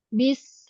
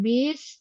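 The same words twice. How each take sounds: First: The vowel in 'bis' is short and direct. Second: The vowel in 'bis' is drawn out long. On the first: The speaker calls it right. "bis langsung ya" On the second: The speaker calls it wrong. "jangan bis, jangan panjang bi-nya"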